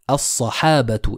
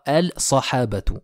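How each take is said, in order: First: The L merges into a doubled S. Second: The L is pronounced before the S. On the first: The speaker calls it right. "Je vais donc dire as-sahabatu" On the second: The speaker calls it wrong. "et non pas al-sahabatu"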